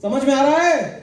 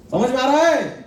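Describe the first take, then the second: First: Slow and deliberate, no laugh; slow, firm check-in. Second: Asking through a chuckle; asked with a light laugh; laughing check-in. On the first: Boss repeats the question to his team, slowly and firmly. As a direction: press each word of समझ में आ रहा है. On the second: Boss checks his team gets it, with a laugh. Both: Real, not acted. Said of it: "asks team twice".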